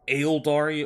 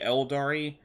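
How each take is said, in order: First: The name begins with an extra A sound. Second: The name begins without the A sound.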